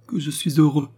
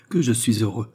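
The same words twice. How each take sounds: First: Higher, more elated exclamation; overjoyed, building outburst; mounting joy. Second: Restrained joy, near usual pitch; first, gentler outburst of joy; happy exclamation. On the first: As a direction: lift the pitch with happiness. Joyful father repeats, rising. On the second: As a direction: say it with contained happiness. Joyful father repeats his exclamation. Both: A narrator's reading.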